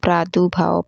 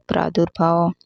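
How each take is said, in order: First: प्रादुर्भाव said as "pradubhao"; "pra-du-bhao" for प्रादुर्भाव; wrong pronunciation. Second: प्रादुर्भाव said as "pradurbhao"; "pra-dur-bhao" for प्रादुर्भाव; correct pronunciation. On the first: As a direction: leave the middle r out of प्रादुर्भाव. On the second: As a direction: sound the middle r in प्रादुर्भाव. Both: Shown as a demonstration. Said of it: "नहीं होता".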